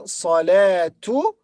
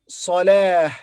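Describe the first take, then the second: First: The word ends with a t sound and vowel. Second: The word ends with an h sound. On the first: The word is joined to the next word. "the Ta marbuta will be pronounced as Ta, not Ha" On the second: The word is said on its own. "this is Salah"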